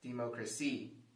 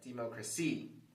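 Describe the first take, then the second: First: The stress is on the fourth syllable. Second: The stress is on the fourth syllable.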